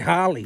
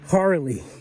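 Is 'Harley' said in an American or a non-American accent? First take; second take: non-American; American. First: The word is said in a non-American accent. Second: The word is said in an American accent. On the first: "we say Harley" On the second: "I love it how Americans say Harley"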